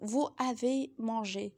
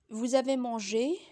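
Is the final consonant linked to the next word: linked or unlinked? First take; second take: unlinked; linked. First: No z sound links vous to avez. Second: A z sound links vous to avez. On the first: The speaker calls it wrong. "Vous ne pouvez pas dire" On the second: The speaker calls it right. "la liaison est obligatoire entre pronom et verbe"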